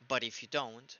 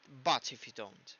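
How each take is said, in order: First: The t in 'but' is a quick tap. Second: The t in 'but' is a clear t.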